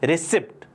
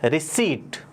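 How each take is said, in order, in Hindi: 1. p की आवाज़ आखिरी t से पहले बोली जाती है। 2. p की आवाज़ आखिरी t से पहले साइलेंट रहती है। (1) "हम बहुत सारे लोग क्या बोलते हैं?" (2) "सही प्रोनाउंसिएशन क्या है? ... पी क्या रहता है? साइलेंट रहता है।"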